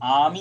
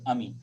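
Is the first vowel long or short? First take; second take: long; short. First: The first vowel is long. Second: The first vowel is short. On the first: The speaker calls it right. "पर ये आमी शब्द है" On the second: The speaker calls it wrong. "यदि छोटा अ होता तो हम अमी बोलते"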